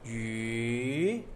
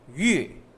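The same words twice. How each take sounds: First: The pitch rises from low to high. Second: The pitch falls from high to low. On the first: "Second tone is from low to high" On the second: "from high to low"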